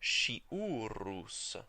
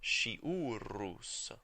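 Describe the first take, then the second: First: The word begins with an sh sound. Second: The same.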